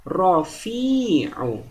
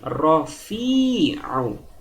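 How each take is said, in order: First: The middle vowel is held long. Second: The middle vowel is held long.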